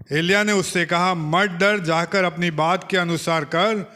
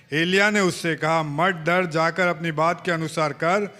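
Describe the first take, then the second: No difference in how they are said.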